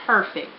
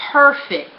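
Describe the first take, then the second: First: Said in the usual way. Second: Perfect said louder and higher, punched hard; emphatic perfect. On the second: Real, not acted. Telling viewers her relationship is perfect, emphatic. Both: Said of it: "a hundred percent A plus".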